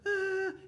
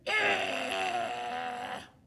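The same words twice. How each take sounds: First: It is an ordinary, lighter cry. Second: It is a deep-throated, raging cry.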